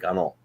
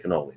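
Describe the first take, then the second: First: It is clipped, ending without the final vowel. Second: It is fully pronounced, ending with the final vowel. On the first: This is how it is said locally. "we use the accent. We say ganol" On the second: This is how it is said elsewhere. "We don't say cannoli"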